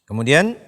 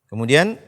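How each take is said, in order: The two takes are said the same way.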